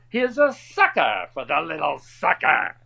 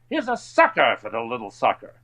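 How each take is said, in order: First: It is delivered in a big, overacted way. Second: It is delivered plainly, without exaggeration.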